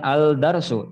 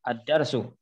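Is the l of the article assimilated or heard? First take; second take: heard; assimilated. First: The l sound of the article is pronounced. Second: The l merges into a doubled d sound. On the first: The speaker calls it wrong. "bukan al-darsu" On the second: The speaker calls it right. "tapi ad ad-darsu"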